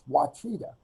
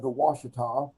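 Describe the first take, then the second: First: The middle consonant is a 'ch' sound. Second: The middle consonant is an 'sh' sound. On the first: The speaker calls it wrong. "I thought would probably be pronounced Wachita" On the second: The speaker calls it right. "it's spelled O U A C H I T A"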